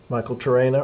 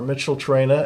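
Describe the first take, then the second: First: The first word sounds like Michael. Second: The first word sounds like Mitchell. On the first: "nobody pronounces it the same" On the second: "nobody pronounces it the same"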